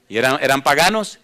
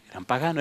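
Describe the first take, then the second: First: Said in the usual way. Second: "Eran paganos" dropped much softer, settled; quiet answer. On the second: Shown as a demonstration. Preacher answers his own question to the church, much softer.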